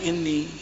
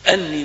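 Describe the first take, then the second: First: The word begins with an 'i' vowel. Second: The word begins with an 'a' vowel. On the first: It starts a new statement. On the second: It explains what the messenger said to them.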